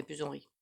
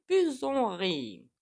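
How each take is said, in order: First: Said in the usual way. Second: High, loud, stretched-out "plus on rit"; drawn-out. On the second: Real, not acted. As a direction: draw out "plus on rit" long and high, falling at the end. Comic drawn-out end of a saying.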